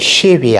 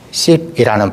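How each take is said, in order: First: The word begins with an sh sound. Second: The word begins with a plain s sound. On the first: The speaker calls it right. "십이 아니라" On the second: The speaker calls it wrong. "십이라는 발음으로 시작하게 되면 죽였던 것입니다"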